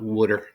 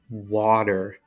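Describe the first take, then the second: First: It is said in a South Jersey accent. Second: It is said in a standard accent. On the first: The speaker calls it wrong. "like some of us in South Jersey like to say" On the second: The speaker calls it right. "we need to say water"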